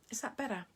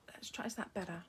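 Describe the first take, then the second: First: Said in the usual way. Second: Whisper. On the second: Real, not acted. Adjusting camera, checking shot quietly.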